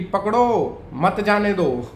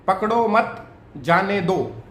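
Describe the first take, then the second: First: The pause comes before 'mat', meaning catch him. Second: The pause comes after 'mat', meaning don't catch.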